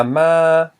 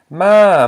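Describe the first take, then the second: First: Ma held high and level; sustained high-tone ma. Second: Ma arched high then dropping; long falling-tone Ma. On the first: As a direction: say ma loud on a steady high note. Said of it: "this equals a high tone". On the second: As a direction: say Ma very loud, swooping down from high. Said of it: "it's a falling tone". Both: Shown as a demonstration.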